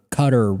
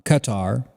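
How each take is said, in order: First: Qatar stressed on the first syllable, CUT-er; alternative pronunciation. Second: Qatar stressed on the second syllable, kuh-TAR; alternative pronunciation. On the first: Podcaster offering another version, Qatar said CUT-er. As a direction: say Qatar like "cutter", weak final syllable. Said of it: "whatever you wanna call it". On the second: Podcaster naming the city's country, Qatar said kuh-TAR. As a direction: say Qatar as kuh-TAR, long open final vowel. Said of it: "however you say it". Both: Shown as a demonstration.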